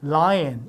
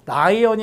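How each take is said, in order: First: It is said with an English L sound. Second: It is said with Korean-style sounds. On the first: The speaker calls it right. "lion 이렇게 나는 거거든요" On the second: The speaker calls it wrong. "라이언이 아니라"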